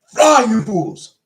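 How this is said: It is yelled loudly.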